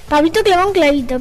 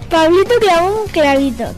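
First: It is said quickly with speed. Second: It is said slowly and carefully. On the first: "Ahora acelera" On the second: "Despacio, primero despacio"

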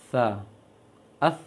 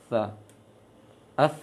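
No difference in how they are said.

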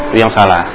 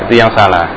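The two takes are said the same way.

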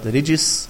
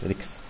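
First: The word is said with a j sound. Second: The word is said with a k sound. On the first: "statt Rijis mit Jim" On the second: "das ist ein Dialekt der Jemeniten, dass man mit Kaf spricht"

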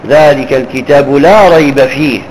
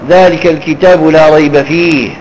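Both takes have the same delivery.

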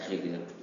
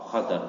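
First: The first vowel is an 'i' sound. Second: The first vowel is an 'a' sound. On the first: The speaker calls it wrong. "bukan khidir" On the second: The speaker calls it right. "Dengan difathahkan kha"

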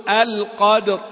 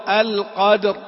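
The two takes are said the same way.

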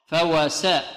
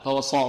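First: The s is light, a plain thin sin. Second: The s is heavy, like an emphatic sad. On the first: The speaker calls it right. "السين مرققة مفتوحة" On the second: The speaker calls it wrong. "لا نقول فوسطنا فوصا صا صا صا، خطأ، هذه صاد"

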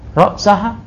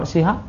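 First: The vowel after ra's is a. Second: The vowel after ra's is i. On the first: The fish and its head were eaten. "hatta roksaha berarti hatanya itu atof" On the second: The eating went up to the head. "Kalau hatta roksiha berarti intihaul ghayah makaniyah"

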